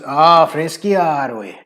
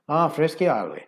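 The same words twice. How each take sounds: First: A heavy, exaggerated Scottish accent is used. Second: A toned-down, milder Scottish accent is used. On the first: "talk like Fat Bastard from Austin Powers" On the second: "bring it back to about fifty percent on that"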